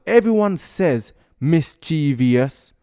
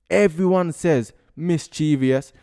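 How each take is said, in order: No difference in how they are said.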